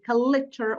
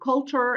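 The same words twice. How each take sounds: First: It has three syllables, with an added vowel. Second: It has two syllables, with no added vowel. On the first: The speaker calls it wrong. "insert a vowel between the L and the ch ... which are mispronunciations" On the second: The speaker calls it right. "instead, for example, of saying culture"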